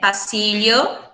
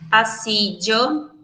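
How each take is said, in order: First: The double L sounds like a palatal lh. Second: The double L sounds like a dj sound. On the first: "a gente pode pronunciar ele como o L H" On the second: "A gente pode pronunciar ele como se tivesse D J"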